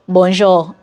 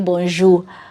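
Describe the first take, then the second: First: It is said with a Nigerian pronunciation. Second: It is said with a Cameroonian pronunciation. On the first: "my people on the other side will say bonjour" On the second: "the average person here in Cameroon will say bonjour"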